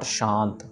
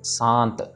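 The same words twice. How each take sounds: First: It begins with an sh sound. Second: It begins with a plain soft s sound. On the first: The speaker calls it wrong. "Not शांत" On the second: The speaker calls it right. "ये प्लेन soft वाला स है, सो शांत"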